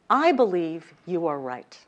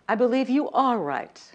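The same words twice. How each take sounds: First: The stress falls on the word I. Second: The stress falls on the word you.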